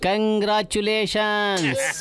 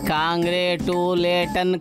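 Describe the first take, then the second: First: The word ends with an s sound. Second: The word ends without an s sound. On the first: The speaker calls it right. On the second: The speaker calls it wrong.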